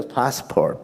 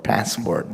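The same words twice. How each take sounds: First: Said in the usual way. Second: "passport" in an American accent, short flat A as in cat. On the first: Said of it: "when you speak in their accent". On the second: Shown as a demonstration. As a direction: say "passport" the American way, softer and lower. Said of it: "they'll say, passport".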